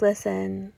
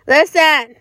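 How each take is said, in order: First: Said in the usual way. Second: Louder second listen, pushing; emphatic listen. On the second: Real, not acted. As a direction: raise it to demand attention. Repeats listen, then louder.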